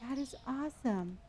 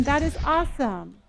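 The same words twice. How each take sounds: First: Much softer, hushed. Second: Said in the usual way. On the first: Shown as a demonstration. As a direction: say it quietly this time. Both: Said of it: "Oh, I'm sorry".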